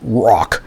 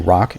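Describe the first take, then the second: First: The word is said with strong, dramatic emphasis. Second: The word is said plainly, without extra emphasis. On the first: The speaker calls it right. "You have to really pronounce it" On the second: The speaker calls it wrong. "you can't just say rock"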